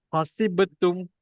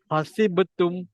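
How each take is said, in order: No difference in how they are said.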